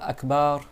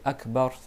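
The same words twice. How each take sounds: First: The last vowel is drawn out long. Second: The last vowel is kept short. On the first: God has big drums. The speaker calls it wrong. "C'est pas Akbar" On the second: God is great. The speaker calls it right. "c'est Akbar sans prolonger"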